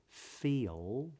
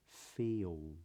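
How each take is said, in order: First: The final L is made with the tongue up. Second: The final L is replaced by rounded lips. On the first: "Instead of pronouncing the L" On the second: "the lips round and the tip of the tongue does not go up"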